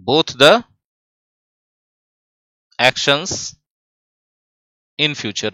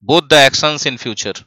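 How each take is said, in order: First: "both the... actions... in future" with long pauses; dictation in chunks. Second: Said in the usual way. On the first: Shown as a demonstration. Teacher writing the answer out for the class, dictation in chunks.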